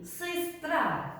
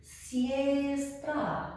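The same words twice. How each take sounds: First: Sistra with stressed first syllable, reduced vowel; sistra, the right reading; correct pronunciation. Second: Siestra with an ie sound, no stress rule applied; siestra, the wrong reading; wrong pronunciation. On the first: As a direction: say sistra, the short i sound. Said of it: "because the accent falls here". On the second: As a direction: siestra read plainly as spelled. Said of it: "If I read it without the accent". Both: Shown as a demonstration.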